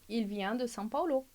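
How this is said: The pitch falls at the end. It is a statement. "estou fazendo uma afirmação"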